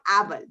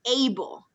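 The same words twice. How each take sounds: First: The first vowel is a Spanish 'ah' sound. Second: The first vowel is an English 'ay' sound. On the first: The speaker calls it wrong. "muchos de ustedes dijeron able" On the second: The speaker calls it right. "the way you pronounce it is able"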